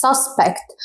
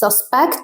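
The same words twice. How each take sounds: First: SUSpect, first syllable punched; stress on SUSpect. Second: SusPECT, second syllable punched; stress on susPECT. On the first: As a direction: hit SUS in Suspect. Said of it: "هتكونوا مركزين على حرف اليو". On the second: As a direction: lean on PECT in Suspect. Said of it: "هتركز على الجزء التاني". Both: Shown as a demonstration.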